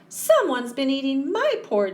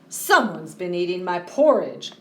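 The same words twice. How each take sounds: First: It is said in a high squeak. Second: It is said in a loud roar.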